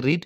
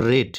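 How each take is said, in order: First: "read" with a long ee, like "reed"; base-form "read", pronounced reed; present-tense pronunciation. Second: "read" with a short e, like "red"; third-form "read", pronounced red; past-participle pronunciation. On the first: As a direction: say "read" to rhyme with "need". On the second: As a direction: say "read" to rhyme with "bed". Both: Shown as a demonstration. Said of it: "একই বানান কিন্তু উচ্চারণ আলাদা হয়".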